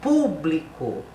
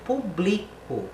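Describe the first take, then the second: First: "público" said PÚ-bli-co, first syllable hit hard and slow; "público" stressed on PÚ, slowly, as a teacher demo. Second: "público" said pu-BLI-co, stress on BLI; "público" read as the verb, pu-BLI-co, for a class; stress on second-to-last syllable. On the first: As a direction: lean on the opening PÚ of "público". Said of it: "essa palavra aqui eu vou ler". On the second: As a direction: put the weight on BLI in "público", not on PÚ. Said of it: "Ela não tem acento aqui". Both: Shown as a demonstration.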